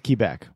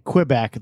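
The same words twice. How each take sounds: First: The name is said with a French pronunciation. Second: The name is said with an English pronunciation. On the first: This is how French speakers say it. "In French, it's Quebec" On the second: This is how English speakers say it. "We say Quebec"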